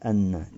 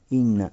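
First: The word begins with an 'a' vowel. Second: The word begins with an 'i' vowel. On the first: The speaker calls it wrong. "а не анна, не фатха" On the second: The speaker calls it right. "то есть касра"

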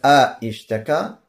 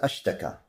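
First: It begins with two vowels, a then i. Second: It begins with a single vowel, a, then sh. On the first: The speaker calls it wrong. "не говорится а-иштака" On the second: The speaker calls it right. "а говорится аштака"

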